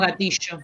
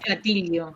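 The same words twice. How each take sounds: First: It uses the Buenos Aires pronunciation. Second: It uses the pronunciation of Argentina outside Buenos Aires. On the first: "en Buenos Aires decimos gatillo" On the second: "En el resto de Argentina se dice gatillo"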